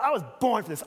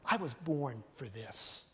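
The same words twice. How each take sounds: First: It sounds boastful and self-glorifying. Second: It sounds humble and quietly resolute. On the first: The speaker is claiming glory for themselves. The speaker calls it wrong. "I'm just guessing that's not the tone Jesus used" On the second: The speaker is devoted to a purpose beyond themselves. The speaker calls it right. "I think Jesus was saying"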